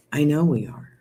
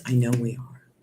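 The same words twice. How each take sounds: First: "we" lifted higher with conviction; firm repeat, "we" raised; stress on we. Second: Said in the usual way. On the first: Shown as a demonstration. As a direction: say "I know we are" again, rising on "we" with belief.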